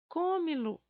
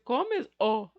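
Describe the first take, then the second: First: An l sound comes before the final o. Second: An s sound comes before the final o. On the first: The speaker calls it right. "a gente tira esse S e acrescente o, o L" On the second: The speaker calls it wrong. "é até difícil de pronunciar"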